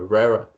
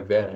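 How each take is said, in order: First: The name is said with an American pronunciation. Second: The name is said with a Portuguese pronunciation. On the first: The speaker calls it right. "é Vera" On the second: The speaker calls it wrong. "não é Vera"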